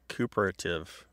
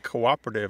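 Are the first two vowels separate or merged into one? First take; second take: merged; separate. First: The first two vowels merge into one sound. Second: The first two vowels are said as separate syllables. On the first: The speaker calls it wrong. "you don't pronounce a word like cooperative, like cooperative" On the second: The speaker calls it right. "don't you see that the diaeresis is providing a clue to pronunciation"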